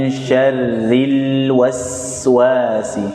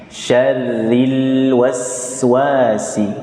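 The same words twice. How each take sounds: Both takes have the same delivery.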